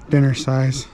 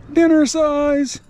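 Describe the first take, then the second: First: Said in the usual way. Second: High, slow drawn-out Dinner size; amused mock emphasis. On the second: Real, not acted. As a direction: stretch it out, amused and teasing. Amused repeat after laughing.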